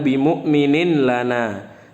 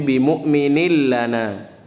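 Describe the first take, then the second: First: A clear n is heard before the l. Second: The n merges fully into the following l. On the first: The speaker calls it wrong. "jangan bi mu'minin lana" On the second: The speaker calls it right. "tapi bi mu'minil lana"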